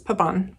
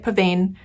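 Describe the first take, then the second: First: The ending is silent, not every letter sounded. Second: Every letter, including the ending, is sounded. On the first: The speaker calls it right. "correct your pronunciation of this word" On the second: The speaker calls it wrong. "we like to pronounce every letter in every word"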